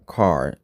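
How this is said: The vowel is an open, unrounded 'ah'.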